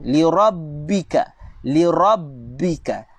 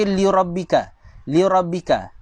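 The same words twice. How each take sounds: First: Rabbika with a held double b; doubled b. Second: Rabbika said as rabika, no doubled b; single b, wrong. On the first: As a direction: Li rabbika, slow, lean on the bb. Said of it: "jaga sabdu". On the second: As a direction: Li rabbika with the shadda dropped. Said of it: "Dia telah buang sabdu". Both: Shown as a demonstration.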